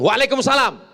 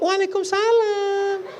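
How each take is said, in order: First: It is said in a plain, ordinary voice. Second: It is said in a soft, breathy, drawn-out voice. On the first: A normal reply to a wrong-number call. The speaker calls it right. "jawab biasa aja" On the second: A flirtatious reply that invites attention. The speaker calls it wrong. "jangan bersuara mendayu-dayu, mendesah-desah, lemah gemulai"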